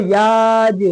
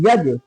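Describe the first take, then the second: First: The vowel is drawn out long. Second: The vowel is said short and quick. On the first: The speaker calls it wrong. "यज को याज ऐसे नहीं पढ़ेंगे" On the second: The speaker calls it right. "यज जल्दी"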